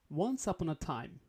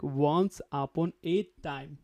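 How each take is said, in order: First: The words run together in one smooth flow. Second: Each word is said separately, one by one. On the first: The speaker calls it right. "try to link together" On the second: The speaker calls it wrong. "not word by word, like"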